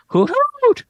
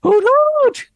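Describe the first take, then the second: First: High hooting owl call; owlbear voice. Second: High hooting owl call, louder; owlbear voice. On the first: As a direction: hoot it out like a giant owl. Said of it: "The owlbear hoots at you aggressively". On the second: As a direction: repeat the hoot even bigger. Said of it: "What was that again?". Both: Acted.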